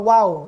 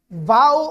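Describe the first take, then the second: First: The word begins with a w sound. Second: The word begins with a v sound. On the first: "Dalawa kasi yung pronunciation" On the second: "Dalawa kasi yung pronunciation"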